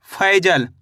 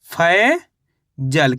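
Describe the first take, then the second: First: Said in the usual way. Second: "Faizal" very slow, stretched फै, long gap, then जल; syllable by syllable. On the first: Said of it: "फै हो गया". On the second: Shown as a demonstration. Teacher reveals the test word to learners, slowly in two parts. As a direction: break "Faizal" after a long rising फै. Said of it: "तो मिलके बन गया ये".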